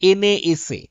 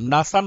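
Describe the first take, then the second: First: Each letter is pronounced separately. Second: It is pronounced as a single word. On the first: "initial letter দিয়ে আমরা পড়তাম" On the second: "একবারে যেটাকে পড়ছি"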